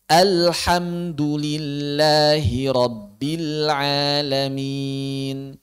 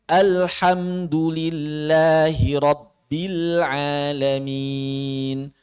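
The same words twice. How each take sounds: No difference in how they are said.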